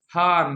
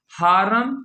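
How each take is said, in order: First: हार्म as "haarm" with open "aa"; correct one-syllable reading. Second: हारम as "haa-ram", extra vowel before the m; wrong two-syllable reading. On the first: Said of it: "पढ़ेंगे क्या, हार्म". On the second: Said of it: "इन तीनों में से कौन सा सही है". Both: Shown as a demonstration.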